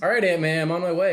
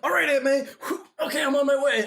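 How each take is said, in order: First: It is said in a relaxed, normal voice. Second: It is said breathlessly, as if exerting himself.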